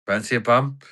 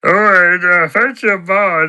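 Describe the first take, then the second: First: Said in the usual way. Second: High, loud character impression; Patter. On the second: Character takes up his mate's offer, high loud impression. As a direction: repeat the offer in a loud, raised put-on voice. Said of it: "I can do an impression of Patter".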